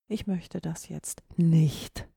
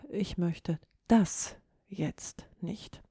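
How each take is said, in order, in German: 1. Die Betonung liegt auf dem Wort nicht. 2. Die Betonung liegt auf dem Wort das. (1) "Verneinung, auf gar keinen Fall" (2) "Die 3. Form der Betonung"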